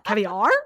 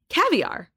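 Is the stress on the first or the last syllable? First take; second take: last; first. First: The stress falls on the last syllable. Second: The stress falls on the first syllable. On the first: The speaker calls it wrong. "why are you putting the emphasis on the R?" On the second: The speaker calls it right. "it's like the emphasis is on the ca"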